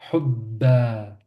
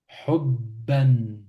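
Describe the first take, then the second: First: The word ends on a vowel, without n. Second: The word ends with an n sound.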